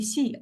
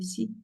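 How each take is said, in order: First: The syllable carries a full, distinct tone. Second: The syllable is light, in a neutral tone. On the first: "can be this one" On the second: "like neutral, maybe also, uh, also okay"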